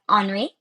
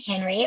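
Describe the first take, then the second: First: The name has a French pronunciation. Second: The name has an American English pronunciation.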